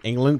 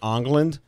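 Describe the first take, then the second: First: The name begins with an 'eng' sound. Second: The name begins with an 'ong' sound. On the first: "whose last name was England" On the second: "but they pronounced it Ongland"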